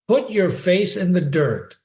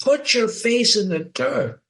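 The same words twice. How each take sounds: First: Said in the usual way. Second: Higher-pitched command, not truly screamed; mock scream. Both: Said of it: "and she screams".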